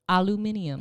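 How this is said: It is said in a British way. "you know how the British say it?"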